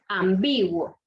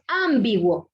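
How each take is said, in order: First: "ambiguo" slow and lower, stressed am-BI-guo; corrective, slowed "am-BI-guo". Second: "ambiguo" punched loud on AM, as ÁM-biguo; wrongly stressed "ÁMbiguo", loud opening syllable; stress on first syllable. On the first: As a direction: lean on the middle syllable: am-BI-guo. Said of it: "pero no es. Es ambiguo". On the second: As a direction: hit the first syllable hard: AM-bi-guo. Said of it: "si decimos que es ambiguo, entonces sería esdrújula". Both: Shown as a demonstration.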